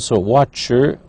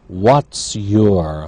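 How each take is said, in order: First: The words are shortened and run together. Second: Each word is said fully and separately. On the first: "the reduced pronunciation"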